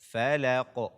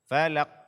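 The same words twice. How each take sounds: First: The final q ends with a bouncing release. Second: The final q stops flat without bouncing. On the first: The speaker calls it right. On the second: The speaker calls it wrong.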